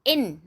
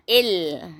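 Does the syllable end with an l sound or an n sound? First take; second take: n sound; l sound. First: The syllable ends with a clear n sound. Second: The syllable ends with an l sound, no n. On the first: The speaker calls it wrong. "Jangan kita buat in. In. Ah, in salah" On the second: The speaker calls it right. "kita kena masukkan huruf idgham bila gunah ke dalam nun sakinah"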